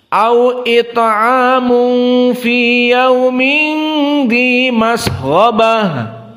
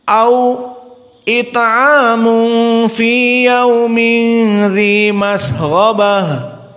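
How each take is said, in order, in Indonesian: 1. Kata-kata mengalir terus tanpa jeda setelah 'au'. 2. Ada jeda diam singkat tepat setelah 'au'.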